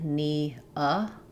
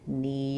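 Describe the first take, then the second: First: The two vowels are said as separate sounds. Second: The vowels are joined with a Y sound. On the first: "You can think about it like knee-uh" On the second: "Notice how I use a Y sound here. but as I link"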